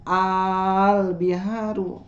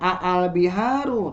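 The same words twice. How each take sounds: First: The opening vowel is drawn out long. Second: The opening vowel is said short. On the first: The speaker calls it right. "tapi dibacanya al biharu" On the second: The speaker calls it wrong. "tidak dibaca al biharu"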